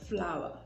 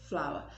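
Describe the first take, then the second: First: It sounds exactly like the word 'flower'. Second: It sounds exactly like the word 'flower'.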